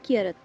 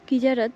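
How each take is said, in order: First: The middle consonant sounds like 'y' in yes. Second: The middle consonant sounds like 'j' in jam. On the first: The speaker calls it right. "But এটা উচ্চারণ হবে কিয়ারাত" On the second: The speaker calls it wrong. "এখানে লেখা রয়েছে কিজারাত"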